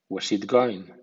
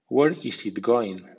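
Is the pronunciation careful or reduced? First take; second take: reduced; careful. First: The words are reduced and run together. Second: Every word is pronounced fully and carefully. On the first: "a continuación en versión informal o coloquial" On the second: "primero en estilo formal"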